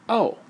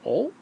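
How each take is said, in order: First: A plain, accepting oh without judgment. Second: Graham's questioning, judgmental oh.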